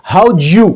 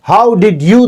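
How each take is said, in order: First: "how'd you" fused as howdju; squeezed blend. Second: "how did you" with all three words sounded; separate words. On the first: Teacher showing natives merge both words, blended. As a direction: collapse "how'd you" into one J-blended unit. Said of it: "एक syllable बनाया". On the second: Teacher showing the words before merging, separate. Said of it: "दोनों को उन्होंने". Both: Shown as a demonstration.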